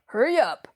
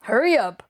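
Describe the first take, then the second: First: Impatient call. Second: Urgent, hurrying her along; impatient call. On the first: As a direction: hurry up repeated more urgently. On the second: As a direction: snap her inside quickly. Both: A narrator's reading. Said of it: "he called out impatiently".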